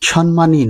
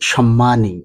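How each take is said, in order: First: The m sound is short and single. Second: The m sound is held long and doubled. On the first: The speaker calls it wrong. "সম্মানী নয়" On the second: The speaker calls it right. "শুদ্ধ উচ্চারণ সম্মানী"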